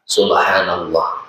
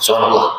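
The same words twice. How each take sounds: First: The phrase is said at a moderate pace. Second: The phrase is said quickly and hurriedly. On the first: The pause is the minimum length required. The speaker calls it right. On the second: The pause is too short to count. The speaker calls it wrong.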